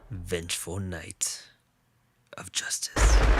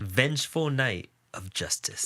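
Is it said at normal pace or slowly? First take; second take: slowly; normal pace. First: It is said more slowly. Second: It is said at a normal pace.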